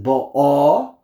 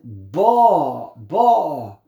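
First: "Ba'a" with the final A punched and held; short first syllable, loud second in "Ba'a"; stress on last syllable. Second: "Ba" hit loud and long, any ending falling away; stress on first syllable. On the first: Teacher contrasting two readings for students, end-stressed "Ba'a". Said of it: "If it's under the last syllable". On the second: Teacher contrasting two readings for students, front-stressed "Ba". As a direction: punch the opening of "Ba", stretched out. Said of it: "If it's under the first syllable". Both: Shown as a demonstration.

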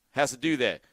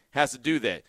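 No difference in how they are said.

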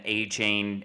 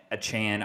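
First: Achane said AY-chain, long A in both syllables. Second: Achane said uh-CHAN, short A at the end. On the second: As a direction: try Achane with a weak first vowel, then "chan". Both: Real, not acted. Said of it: "I don't know how to say his name".

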